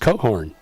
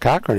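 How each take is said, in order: First: The name is pronounced as Cohorn. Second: The name is pronounced as Cochran. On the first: The speaker calls it right. "correct pronunciation" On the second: The speaker calls it wrong. "is not Cochran"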